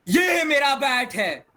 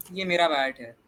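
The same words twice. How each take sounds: First: Loud, high-pitched drawn-out exclamation; changed tone. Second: Said in the usual way. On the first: Shown as a demonstration. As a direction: shout it out high and slow. (ऊँची आवाज़ में खींचकर ज़ोर से) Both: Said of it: "देखो, कितना difference हो सकता है".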